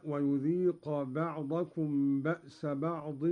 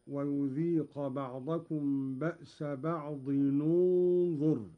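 First: Said in the usual way. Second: "بعض انظر" joined slowly as ba'dinun-dhur; damma on the tanween. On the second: Shown as a demonstration. (ضم التنوين عند وصل "بعض انظر") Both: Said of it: "قرأ قالون بضم أولى الساكنين".

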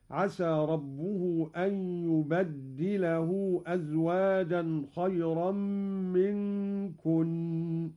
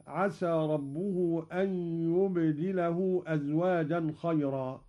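First: يبدله with a doubled dal, yubaddilahu, slow; Qalun reading. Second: Said in the usual way. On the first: Shown as a demonstration. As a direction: lean on the dal of يبدله, bad-di. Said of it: "قرأ قالون بتشديد الدال على التكسير". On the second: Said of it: "قرأ قالون بتشديد الدال".

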